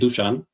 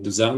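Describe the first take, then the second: First: The name is said in its native pronunciation. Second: The name is said in an anglicized English pronunciation. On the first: This is how the name is supposed to be pronounced. "how you pronounce my name is actually Dushan" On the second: This is how English speakers usually say the name. "all the native uh, English speakers call me Duzan, which is fine"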